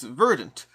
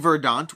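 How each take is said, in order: First: The word is pronounced in a plain-sounding way. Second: The word is pronounced in a fancy-sounding way. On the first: This is how others said it should be said. The speaker calls it right. "people corrected me and said it's boring" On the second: This is how the speaker had been saying it. The speaker calls it wrong. "which sounds very cool and fancy"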